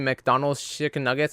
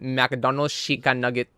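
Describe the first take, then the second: First: It is said in the speaker's ordinary accent. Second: It is said in an imitated Mexican-mom accent.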